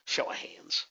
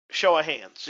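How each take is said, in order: First: Breathy whisper, no voice at all. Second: Said in the usual way. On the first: Shown as a demonstration. Host whispering the request to the webinar audience, hushed.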